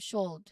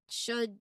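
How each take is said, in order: First: The L sound is pronounced. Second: The L sound is silent. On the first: The speaker calls it wrong. "not ... That's not how we pronounce it" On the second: The speaker calls it right. "We pronounce them as could, should"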